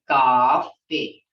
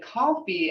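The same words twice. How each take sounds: First: The vowel is held noticeably longer. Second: The vowel is short, as in English. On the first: "we say coffee. It's held longer" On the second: "as English people do"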